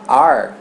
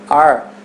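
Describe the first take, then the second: First: It is reduced, sounding like 'are'. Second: It is reduced, sounding like 'are'.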